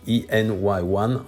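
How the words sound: The letters and number are read in English.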